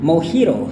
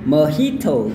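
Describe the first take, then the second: First: The t sounds like a soft d. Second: The t keeps a clear t sound. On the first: "bunyi T itu berubah jadi bunyi kayak D yang halus" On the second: "kalau gaya Inggris"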